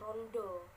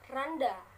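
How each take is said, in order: First: Both vowels sound like an O. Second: Both vowels sound like a plain A.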